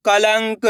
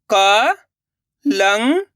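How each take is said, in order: First: Said in the usual way. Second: कलंक drawn out very slowly; syllable by syllable. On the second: Shown as a demonstration. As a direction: sound out कलंक. (कलंक को अक्षर-अक्षर बोलना) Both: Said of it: "अब आगे देखिए".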